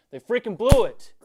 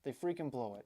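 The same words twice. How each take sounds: First: Sudden furious yell, far louder; furious outburst. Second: Said in the usual way. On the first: Real, not acted. Fan blowing up over his team choking again, furious yell. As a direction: explode with real frustration on the last words. Rant peaks, then he says sorry.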